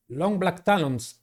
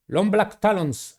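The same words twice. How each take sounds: The two takes are said the same way.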